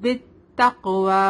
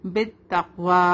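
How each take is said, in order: First: بالتقوی with the qaf bounced and echoing; بالتقوی with a clear qalqalah echo on the qaf. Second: بالتقوی with the qaf stopped flat, no echo; بالتقوی with a dead qaf, the wrong way; no qalqalah. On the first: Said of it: "قاف یہاں پر قلقلہ کے ساتھ پڑھیں گے". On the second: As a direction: say بالتقوی without bouncing the qaf. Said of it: "ہم ایسے پڑھ رہے ہیں، تو قلقلہ نہیں ہو رہا ہے". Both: Shown as a demonstration.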